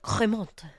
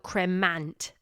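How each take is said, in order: First: It is said with a French accent. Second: It is read out with an English pronunciation. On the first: "I hope you like my French accent there" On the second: "it's spelled cremant"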